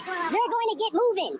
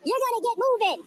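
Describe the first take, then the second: First: Drawn out, word by word; slow, emphatic order. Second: Said in the usual way. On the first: Real, not acted. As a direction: spell out the order very slowly. Repeats order, spaced out.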